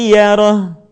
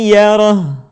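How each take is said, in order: Both takes have the same delivery.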